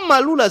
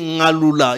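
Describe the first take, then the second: First: The name begins with an M sound. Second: The name begins with an Ng sound. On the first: The speaker calls it wrong. "c'est pas Maloula" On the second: The speaker calls it right. "c'est Ngaloula"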